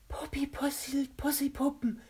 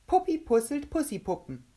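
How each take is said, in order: First: High, whispery character voice; very careful articulation. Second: Said in the usual way. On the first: A narrator's reading. Kovac tries the tongue twister, high whispery careful speech. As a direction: pronounce "Puppi pusselt Pussipuppen" with painstaking precision. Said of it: "versuchte sehr genau zu sprechen".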